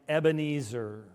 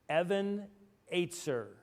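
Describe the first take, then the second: First: The name is said the usual English way. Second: The name is said differently from the usual English way. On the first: The speaker calls it wrong. "how does everybody say it?" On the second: The speaker calls it right. "there is a line in a hymn that we all know that we mispronounce"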